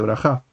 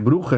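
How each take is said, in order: First: The vowels follow an Israeli Sephardic pronunciation. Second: The vowels follow a Yiddish-style pronunciation. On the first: "en lugar de" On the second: "según el estilo yiddish"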